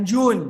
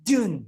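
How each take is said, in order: First: "June" with a round Indonesian U; faulty "June", full back U; mispronounced June. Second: "June" with a fronted English vowel. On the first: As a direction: say "June" as a learner reads it, joon. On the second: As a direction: say "June" as the teacher's English model. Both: Shown as a demonstration. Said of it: "bukan Jun".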